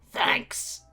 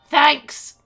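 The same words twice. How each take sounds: First: It is said at a quieter volume. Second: It is said at a louder volume.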